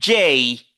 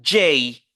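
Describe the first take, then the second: First: The letter is said with an English pronunciation. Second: The same.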